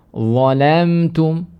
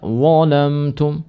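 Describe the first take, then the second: First: "zalamtum" drawn out with a light "la"; thin lam. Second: "zalamtum" drawn out with "la" darkened toward "lo"; lam wrongly thickened. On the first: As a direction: keep the lam of "zalamtum" thin after the heavy first letter. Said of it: "Ya, seperti zalamtum". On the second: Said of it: "Jangan dibaca zalamtum". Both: Shown as a demonstration.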